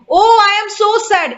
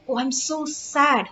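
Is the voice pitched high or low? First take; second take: high; low. First: The voice stays at a high pitch. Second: The voice drops to a low pitch. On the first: The speaker calls it wrong. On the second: The speaker calls it right.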